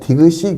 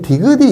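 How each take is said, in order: First: The final consonant is replaced before carrying over. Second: The final consonant carries over unchanged into the ending. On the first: The speaker calls it right. "디귿이 그렇게 하죠. 얘는 디귿이에서는 교체가 일어났고" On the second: The speaker calls it wrong. "우리 디귿이 이렇게 하지 않잖아요"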